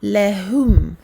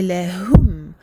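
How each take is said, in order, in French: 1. La dernière syllabe a une voyelle 'oo'. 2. La dernière syllabe a une voyelle 'oo'.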